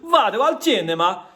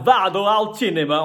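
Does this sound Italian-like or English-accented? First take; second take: Italian-like; English-accented. First: It is said with an Italian-like accent. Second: It is said with a strong English accent. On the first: The speaker calls it right. "then it sounds a lot better" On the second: The speaker calls it wrong. "something very English, which sounds stupid"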